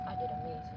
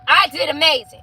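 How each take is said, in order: First: It is said at a normal, softer volume. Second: It is said louder.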